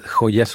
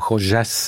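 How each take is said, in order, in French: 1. Il est prononcé avec un accent espagnol non argentin. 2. Il est prononcé avec un accent espagnol argentin.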